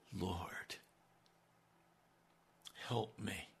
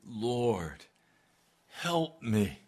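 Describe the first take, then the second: First: Soft, hushed begging cry; quiet plea. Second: Fuller, pressing plea for help; pleading cry. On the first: Woman kneeling before Jesus, begging in a hushed plea. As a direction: plead quietly, almost broken. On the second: Woman kneeling before Jesus, pleading aloud. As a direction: beg him outright. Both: Acted. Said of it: "I want you to hear. That's a cry".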